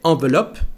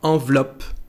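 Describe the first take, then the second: First: The middle E is sounded as a vowel. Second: The middle E is dropped entirely. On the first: The speaker calls it wrong. "We don't say" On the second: The speaker calls it right. "that letter E here disappear"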